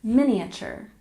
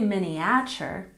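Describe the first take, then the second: First: The stress is on the first syllable. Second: The stress is not on the first syllable. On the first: The speaker calls it right. "We stress the first syllable" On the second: The speaker calls it wrong. "We don't say miniature, that sounds strange"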